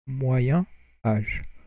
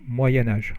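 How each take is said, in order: First: The words are said separately without a link. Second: The words are joined with a linking sound. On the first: "if you don't do the liaison" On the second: "if you do the liaison"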